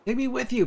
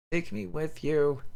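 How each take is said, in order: First: High, wailing plea with a falling end; a child begging through tears; girl crying out to her family, very high and wailing. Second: Slow, high, drawn-out begging; dying girl asking her parents to take her, slow and high; slow plea. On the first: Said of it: "Her cries mingle with tears". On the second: Delirious child begging her parents. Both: Acted.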